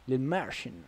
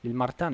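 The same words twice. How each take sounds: First: The name is pronounced with English sounds. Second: The name is pronounced with Italian sounds. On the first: It sounds international. The speaker calls it right. "[name] è più international" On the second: It sounds provincial. The speaker calls it wrong. "[name] è proprio da provinciale"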